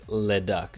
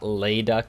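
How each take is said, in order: First: The first vowel is short. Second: The first vowel is long. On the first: The speaker calls it right. "just short on the le" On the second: The speaker calls it wrong. "it's not Layduck"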